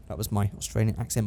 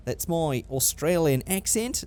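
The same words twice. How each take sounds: First: Said in the usual way. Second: Slow, put-on Australian accent. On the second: Vlogger owning up to his impression, still in Australian accent. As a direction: stretch it out in mock Australian.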